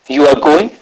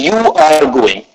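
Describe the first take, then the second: First: The pitch rises at the end. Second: The pitch falls at the end. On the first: It asks whether the person is going. "if we use the rising tone going upward, it will become a question" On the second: It states that the person is going. "with a falling tone going down, it is an statement"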